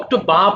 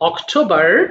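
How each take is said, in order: First: The final r sound is dropped. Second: The final r sound is clearly pronounced. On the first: "আরটা বাদ হয়ে গেল" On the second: "আর থাকলে আর উচ্চারণ করবা"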